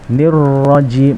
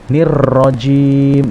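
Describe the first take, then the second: First: The r is trilled only once, briefly. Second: The r is trilled for too long. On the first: The speaker calls it right. "tapi nirrajim" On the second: The speaker calls it wrong. "Misalkan nirrajim ini berlebihan tidak diperkenankan"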